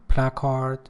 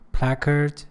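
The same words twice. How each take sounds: First: It is said with a British accent. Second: It is said with an American accent. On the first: "British pronunciation" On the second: "American pronunciation"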